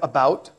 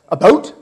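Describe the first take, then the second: First: Said with an American accent. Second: Said with a Canadian accent. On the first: "instead of about" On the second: "About instead of about"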